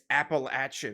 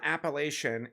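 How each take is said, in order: First: Appalachian is pronounced the Southeastern local way. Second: Appalachian is pronounced a non-local, outsider way. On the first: The speaker calls it right. "it's Appalachian" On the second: The speaker calls it wrong. "it's not Appalachian"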